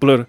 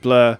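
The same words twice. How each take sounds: First: The word is said with a Spanish accent. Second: The word is said with an English accent. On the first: This is how the Mexican crowd said it. "thousands of people saying Blur" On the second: This is the band's usual pronunciation. "instead of Blur"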